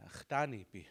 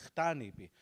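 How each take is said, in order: Both takes have the same delivery.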